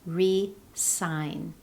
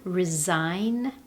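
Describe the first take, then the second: First: The stress is on the first syllable. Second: The stress is on the second syllable. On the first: To sign something again. "when the stress is placed on the first syllable" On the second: To formally leave a position. "The first one"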